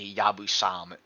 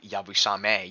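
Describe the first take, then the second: First: The final vowel is dropped. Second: The final vowel is pronounced. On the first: "I love hearing English people say Yabusam" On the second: "instead of Yabusame"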